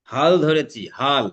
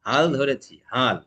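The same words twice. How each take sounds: First: হাল ধরেছি with a strong breathy h in হাল, said louder; forceful aspirated hal. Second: Said in the usual way. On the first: Shown as a demonstration. Teacher showing students the forceful হাল. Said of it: "জোরটা, একটা তেজ". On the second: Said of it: "এরকম normal না".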